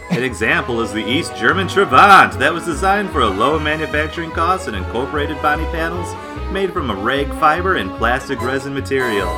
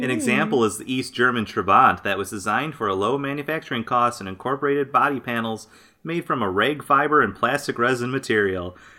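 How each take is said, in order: First: It is read like The Price is Right announcer. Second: It is read in a plain voice.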